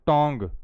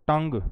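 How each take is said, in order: First: "tongue" said with an aw vowel, as tong; wrong pronunciation. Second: "tongue" said with a short uh, as tung; correct pronunciation. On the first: Teacher shows students the mistake to avoid, wrong pronunciation. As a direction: mispronounce "tongue" to rhyme with song. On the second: Teacher models the English word for students, correct pronunciation. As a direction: say "tongue" to rhyme with sung. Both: Shown as a demonstration. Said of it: "not tongue".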